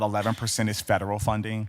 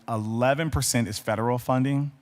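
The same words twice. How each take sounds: First: It is said at a quicker, normal pace. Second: It is said more slowly and deliberately.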